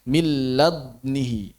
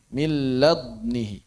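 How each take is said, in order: The two takes are said the same way.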